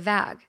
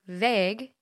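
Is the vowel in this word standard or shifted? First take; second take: Shifted; Standard. First: The vowel is shifted toward a shorter sound. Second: The vowel is the standard long 'ay' sound. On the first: The speaker calls it wrong. "I say vague" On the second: The speaker calls it right. "which is how it should be"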